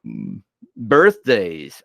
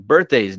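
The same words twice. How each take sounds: First: Slow, stretched yawning voice. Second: Said in the usual way. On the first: Real, not acted. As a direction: say it through a big yawn. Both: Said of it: "I cannot stop yawning".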